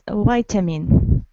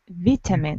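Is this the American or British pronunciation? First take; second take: American; British. First: It is said with an American pronunciation. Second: It is said with a British pronunciation. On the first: "American variant is" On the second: "British variant is"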